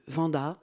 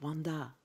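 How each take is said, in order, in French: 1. Le nom est prononcé avec un accent français. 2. Le nom est prononcé avec un accent américain. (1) "moi je vais le prononcer à la française" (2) "selon qu'on le dit à l'américaine"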